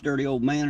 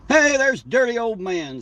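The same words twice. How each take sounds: First: Said in the usual way. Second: High, slow, drawn-out call of welcome; light up as a regular shows up; happy greeting. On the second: Real, not acted. Spotting a regular viewer in the chat, high slow cheerful greeting.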